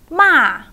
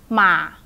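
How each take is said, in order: First: The pitch falls sharply from high to low. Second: The pitch is short and low. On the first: "And the falling one" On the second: "And a short low one"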